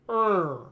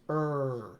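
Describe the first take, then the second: First: The sound is tight and pressed, like a consonant. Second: The sound is open, with space at the back. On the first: The speaker calls it wrong. "press too forcefully against these back teeth... treating this vowel like a consonant" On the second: The speaker calls it right. "open that space up... a lot more space here for the tongue"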